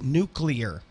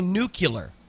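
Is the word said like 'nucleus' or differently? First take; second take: like nucleus; differently. First: The word follows the sounds of 'nucleus'. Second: The word does not follow the sounds of 'nucleus'. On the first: The speaker calls it right. "no, it's nuclear ... as in the nucleus" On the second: The speaker calls it wrong. "or if you say nuclear"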